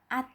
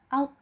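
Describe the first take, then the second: First: The vowel is bright and open, like a. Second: The vowel is dark and rounded, like o. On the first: The speaker calls it wrong. "jangan hanya dibaca at" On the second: The speaker calls it right. "dibaca out"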